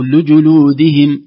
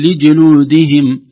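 First: "لجلودهم" with the kasra leaking into the damma; a muddled "لجلودهم"; wrong vowel. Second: "لجلودهم" with the damma weakened to /e/; wrong vowel. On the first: ("لجلودهم" بحركات متداخلة) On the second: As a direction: slur "لجلودهم" as lijeludihim. ("لجلودهم" بضمة ضعيفة) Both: Shown as a demonstration. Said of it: "سنقول".

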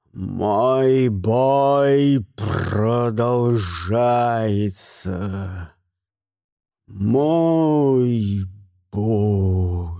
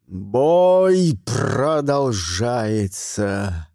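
First: Drawn-out low booming war cry, fading on the last бой; mighty roar. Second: Very slow, low booming battle cry; mighty roar. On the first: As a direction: stretch every word like a battle chant. (протяжный могучий боевой клич) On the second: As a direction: roar it like an ancient warrior. (могучий рёв старого мага) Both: A narrator's reading. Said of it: "заорал Гримуэль таким могучим голосом".

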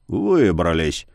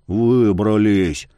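First: Low, plain grumbled echo. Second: Low, slow hoarse gasp of relief. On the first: Yar grumbling the word back to the youth. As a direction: mutter "Выбрались!" back flatly. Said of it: "буркнул Яр". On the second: Youth out of the cave, rasping low and slow. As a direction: rasp it out, spent. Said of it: "прохрипел он". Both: A narrator's reading.

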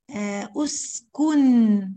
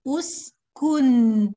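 First: أسكن held very slow with a long ن; stopping on أسكن. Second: أسكن very slow and loud, ن held in the nose; ghunna on أسكن. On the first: Teacher showing the pause: very slow أسكن. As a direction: stretch أسكن at the stop. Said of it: "لما أقف عليها". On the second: Teacher demonstrating the held ghunna: slow loud أسكن. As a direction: lean into the ن of أسكن. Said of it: "أن". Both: Shown as a demonstration.

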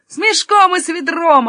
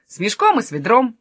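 First: Echoed louder and higher; eager echo. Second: Said in the usual way. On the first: Acted. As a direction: chime in keenly, repeating it. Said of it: "отозвался Юнатан". (громко и восторженно вторя) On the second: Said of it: "сказал Каспер".

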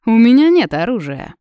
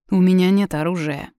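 First: Higher and much louder, smiling mockery; still smiling. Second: Said in the usual way. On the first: A narrator's reading. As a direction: toss it off with a grin. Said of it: "продолжая улыбаться".

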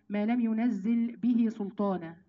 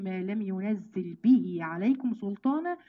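First: Said in the usual way. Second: Slow recitation with عليكم included after به; added عليكم. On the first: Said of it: "كل اللي في القرآن". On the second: Shown as a demonstration. Teacher shows students the unique verse, عليكم added, recited slowly. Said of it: "بزيادة عليكم".

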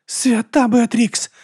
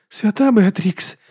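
First: High, very slow moan of horror. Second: High, slow, horrified stage whisper; whispering in shock. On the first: Monk watching her spine twist, moaning. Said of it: "застогнав брат Діас". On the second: Monk watching dark hair sprout, whispering. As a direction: breathe it in horror, drawn out. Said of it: "прошепотів брат Діас". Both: Acted.

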